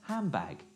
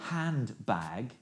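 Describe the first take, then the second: First: The middle sounds blend together. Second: The middle sounds stay distinct.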